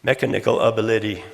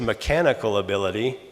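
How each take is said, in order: First: "Mechanical ability" stressed on first and third syllables of each word; misplaced stress. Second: Said in the usual way. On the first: Shown as a demonstration. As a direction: say "Mechanical ability" as MEK-a-NIK-al AB-a-LID-y. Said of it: "put on the first and third instead". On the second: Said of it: "what I really said was".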